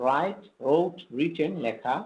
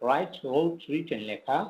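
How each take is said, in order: No difference in how they are said.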